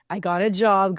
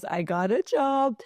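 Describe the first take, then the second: First: Said in the usual way. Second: The job news again, pitched well up; real excitement rising on the repeat; excited repeat. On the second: Real, not acted. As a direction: say it a second time with a burst of glee.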